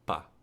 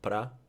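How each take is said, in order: First: Only a single short syllable remains. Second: The first vowel is dropped, leaving one syllable. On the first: "you can even have pa" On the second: "you can have pra"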